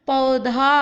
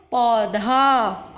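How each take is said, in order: First: पौधा with the औ sound; model word. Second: पौधा very slow, औ drawn out; very slow model word. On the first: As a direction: say पौधा showing the औ. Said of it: "औ आ रहा है". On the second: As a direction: stretch the औ in पौधा. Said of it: "औ का मैंने साउंड निकाला है". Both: Shown as a demonstration.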